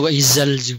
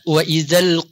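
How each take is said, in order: First: The consonant sounds like a 'z'. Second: The consonant is a soft 'th' sound. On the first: The speaker calls it wrong. "jangan dibaca wa idzal" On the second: The speaker calls it right. "zal itu di ujung lidah"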